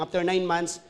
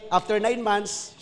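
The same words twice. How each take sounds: First: Said in the usual way. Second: Slow, weighty after nine months with nine leaned on; slow emphatic phrase; stressed nine. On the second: Shown as a demonstration.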